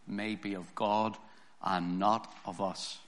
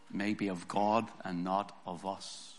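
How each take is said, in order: Both takes have the same delivery.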